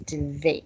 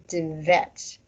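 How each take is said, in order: First: The vowel is the standard ê sound. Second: The vowel is a plain e, not ê. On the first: This is the standard form of the word. The speaker calls it right. "the standard pronunciation and the standard spelling is Dvet" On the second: This is how people in one local area say it. The speaker calls it wrong. "They said Dvet, as if it didn't have a hat on it"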